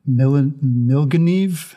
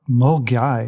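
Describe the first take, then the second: First: The name ends with a 'neev' sound. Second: The name ends with a 'guy' sound. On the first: The speaker calls it wrong. "I'm not going to say it right" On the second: The speaker calls it right. "It's actually pronounced Mulgai"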